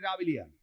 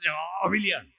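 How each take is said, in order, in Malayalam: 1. ഈ വാക്ക് അധിക ബലമില്ലാതെ സാധാരണ രീതിയിലാണ് പറഞ്ഞിരിക്കുന്നത്. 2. ഈ വാക്ക് ശക്തമായി ഊന്നിയും വലിച്ചു നീട്ടിയുമാണ് പറഞ്ഞിരിക്കുന്നത്. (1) "ആറു മണി മുതൽ പത്തു മണി വരെ രാവിലെയാണ്" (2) "അർത്ഥം മാറി. ആറു മണിക്ക് മുമ്പ് ആണ് രാവിലെ"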